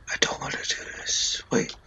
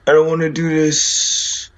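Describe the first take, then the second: First: Breathless frightened whisper; scared whisper. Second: Said in the usual way. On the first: Real, not acted. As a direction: whisper it, too scared to speak aloud. Scared gamer whispering to himself.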